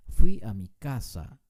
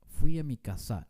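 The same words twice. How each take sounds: First: Casa stressed on its first syllable, KA-sa; correct stress. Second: Casa wrongly stressed on its final syllable, ka-SA; wrong stress demo. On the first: Teacher correcting the example sentence, casa stressed on the first syllable. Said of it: "pero no decimos casa". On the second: Teacher giving a wrong example sentence, casa stressed on the last syllable. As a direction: say casa as "ca-SÁ" at the end of the phrase. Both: Shown as a demonstration.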